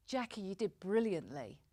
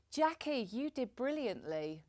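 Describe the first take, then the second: First: Level, meant compliment; steady, sincere congratulation in an everyday pitch; sincere praise. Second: Higher lift on JACKIE, then drop away; less sincere praise. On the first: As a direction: praise Jackie and mean it. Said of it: "holding the look conveys the meaning that I intend". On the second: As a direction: praise tossed off with a high "Jackie". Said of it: "it probably doesn't look that sincere". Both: Shown as a demonstration.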